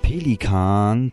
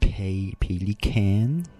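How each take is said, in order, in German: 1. Das Wort wird mit deutscher Aussprache gesagt. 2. Das Wort wird mit englischer Aussprache gesagt.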